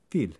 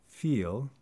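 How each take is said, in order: First: The vowel is a single pure sound. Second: The vowel glides and is lengthened. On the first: "vowels can be pure, single sounds" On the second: "speakers often lengthen or elide diphthongs"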